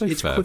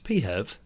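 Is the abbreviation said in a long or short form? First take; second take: short; long. First: It is said as one short syllable. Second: It is said in a longer, slower form. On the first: The speaker calls it right. "I say FEV because it's FEV. quicker to say it, rolls off the tongue" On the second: The speaker calls it wrong. "But that's so slow to say it"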